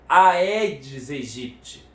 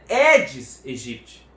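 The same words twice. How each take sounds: First: Aedes begins with an 'ai' sound. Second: Aedes begins with an 'e' sound. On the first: The speaker calls it wrong. "Não é o mosquito da AIDS do Egito" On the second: The speaker calls it right. "O mosquito é Aedes aegypti"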